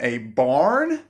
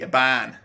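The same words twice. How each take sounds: First: The vowel is said the American way. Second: The vowel is short and flat, Australian.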